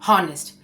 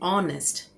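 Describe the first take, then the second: First: The word begins with an audible h sound. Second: The word begins with a vowel, no h. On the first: The speaker calls it wrong. "ये हॉनेस्ट नहीं है" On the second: The speaker calls it right. "हेच यहाँ पे silent है"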